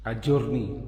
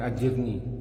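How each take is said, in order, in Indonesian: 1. Vokal setelah j adalah u. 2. Vokal setelah j adalah i. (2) "bukan ajirni"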